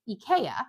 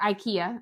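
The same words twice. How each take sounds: First: The name is said in a non-local way. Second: The name is said the local way.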